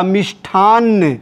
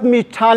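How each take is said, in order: First: मिष्ठान्न with a doubled final n; correct form. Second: मिष्ठान with a single final n; plain short n ending on मिष्ठान; wrong form. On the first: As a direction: say मिष्ठान्न as mish-thaan-na. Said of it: "सही क्या होगा?". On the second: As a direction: say मिष्ठान as mish-thaan. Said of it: "ये गलत". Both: Shown as a demonstration.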